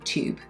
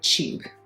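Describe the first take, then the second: First: It is said in an American accent. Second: It is said in a British accent. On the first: "not American tube" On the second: "with a British accent, it sounds like tube"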